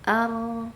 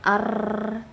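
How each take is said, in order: First: The r has a light, moderate trill. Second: The r has a long, exaggerated trill. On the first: The speaker calls it right. "kita ada getaran tuh" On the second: The speaker calls it wrong. "tidak berlebihan"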